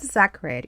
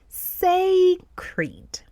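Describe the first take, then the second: First: The first syllable sounds like 'sack'. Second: The first syllable does not sound like 'sack'. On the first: The speaker calls it wrong. "it looks like we have the two words, sac and red, together. But it is not sacred" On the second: The speaker calls it right. "it is sacred"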